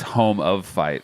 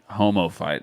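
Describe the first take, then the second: First: It is split as 'home', 'of', then 'fight'. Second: It is run together as 'homo', then 'fight'. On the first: It is the name of a page. The speaker calls it right. "it's a name of a page" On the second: It sounds like an insult. The speaker calls it wrong. "it sounded like something derogatory"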